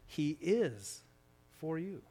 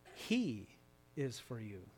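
First: The stress is on the word 'is'. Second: The stress is on the word 'he'.

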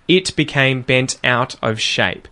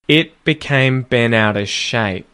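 First: The T sounds are fully pronounced. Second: The T sounds are unreleased or flapped. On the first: "You can pronounce them" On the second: "how I leave T's unreleased or I use the T flap"

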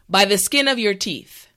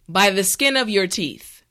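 No difference in how they are said.

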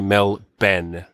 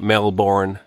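First: The final syllable is a reduced 'bun'. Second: The final syllable is a full 'born'. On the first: This is how locals say the city name. The speaker calls it right. "We say Melbourne. So O-U-R-N-E in Australia is pronounced E-N" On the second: This is how outsiders say the city name. The speaker calls it wrong. "As Americans say it"

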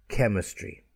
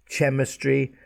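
First: The word begins with a k sound. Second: The word begins with a ch sound. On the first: The speaker calls it right. "It's k" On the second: The speaker calls it wrong. "Don't say chemistry"

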